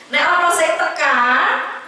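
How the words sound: The last word ends with an 'a' vowel. This is how it is said in another region. "Di sana kan semua yang oh jadi A ya"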